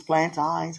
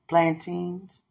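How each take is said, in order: First: Plantains said as plan-tines, long i in the last part; own way of saying it. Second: Put-on Plantains said as plan-teens; trying it another way. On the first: Asking to be taught the word, his own plan-tines try. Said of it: "however you say it". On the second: After asking to learn the word, a plan-teens attempt. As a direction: try Plantains with the ending like teens. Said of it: "Can you teach me how to say it right?". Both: Shown as a demonstration.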